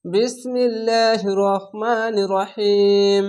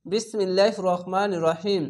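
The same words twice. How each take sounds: First: Slow, drawn-out chant of the bismillah; Quranic recitation. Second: Said in the usual way. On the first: Shown as a demonstration. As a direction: stretch each syllable like a reciter. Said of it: "slow recitation of bismillah". (ধীরে টেনে তিলাওয়াত) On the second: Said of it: "same phrase said quicker".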